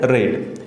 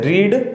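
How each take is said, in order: First: The vowel is a short 'eh' sound. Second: The vowel is a long 'ee' sound. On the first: It is the past participle of the verb. "थर्ड होते हैं उसको रेड बोलते हैं" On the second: It is the present form of the verb. "फर्स्ट form होते हैं उसको रीड बोलते हैं"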